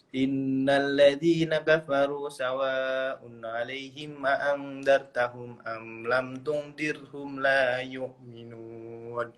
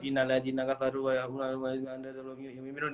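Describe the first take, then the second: First: It is recited slowly and deliberately. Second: It is recited quickly and compressed. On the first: "kalau seumpama pelan ya Mbak" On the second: "Ada yang cepat"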